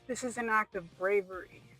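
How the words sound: It is read in a strongly dramatic voice.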